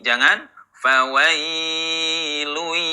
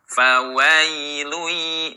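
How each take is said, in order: First: The wai sound is held too long. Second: The wai sound is held for one short beat. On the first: The speaker calls it wrong. "jangan terlalu lama" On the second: The speaker calls it right. "wai cukup satu ayun"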